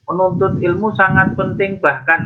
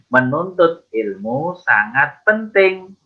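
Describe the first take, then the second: First: It runs on past the full stop without stopping. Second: It comes to a full stop after 'penting'. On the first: The speaker calls it wrong. "jangan nyelonong terus ya" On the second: The speaker calls it right. "berhenti dulu karena lampu merah ini, karena ada titiknya"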